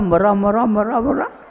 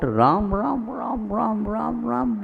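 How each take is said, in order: First: The words are run together quickly. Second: The words are said at a normal, even pace.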